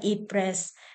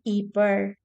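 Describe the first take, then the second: First: The name is said with an English pronunciation. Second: The name is said with a Dutch pronunciation. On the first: "sa English, Ypres, pa- pronounced din siya na as uh, Ypres" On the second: "sa Dutch name, ... pronounced as Yper"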